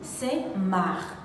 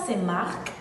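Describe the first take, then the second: First: The final K sound is silent. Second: The final K sound is pronounced. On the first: The speaker calls it right. "le K final devient muet, on dit Saint-Marc" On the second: The speaker calls it wrong. "on ne dit pas Saint-Marc"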